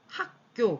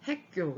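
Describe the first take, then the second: First: The first syllable has an open 'ah' vowel. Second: The first syllable has a fronted 'eh' vowel. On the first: The speaker calls it right. "학교 그러면" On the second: The speaker calls it wrong. "바로 핵교 이렇게 바뀌는 거예요"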